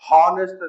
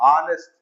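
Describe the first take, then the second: First: It starts with a clear h sound. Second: It starts with a vowel, no h sound. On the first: The speaker calls it wrong. "ಹಾನೆಸ್ಟ್ ಅಂತೀವಿ no" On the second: The speaker calls it right. "No ಆನೆಸ್ಟ್"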